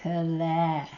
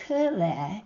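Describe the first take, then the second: First: "Kule" with the stress moved to LE; Mountain Maidu stress. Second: "Kule" with the stress on KU; Concow stress. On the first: Teacher answering what it is in Mountain Maidu, second-syllable stress. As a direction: hold the last syllable of "Kule". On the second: Teacher giving the Concow word for woman, first-syllable stress. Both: Shown as a demonstration. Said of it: "you may need to change the stress".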